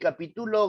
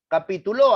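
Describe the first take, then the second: First: The stress is on the third syllable. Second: The stress is on the last syllable.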